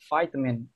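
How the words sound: It is said in an American accent. "Kalau di American accent, mereka cenderung uh, huruf I-nya"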